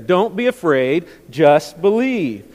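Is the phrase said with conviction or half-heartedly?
conviction. It is said forcefully, with strong conviction. The speaker calls it right. "I want us to say it like we actually mean it"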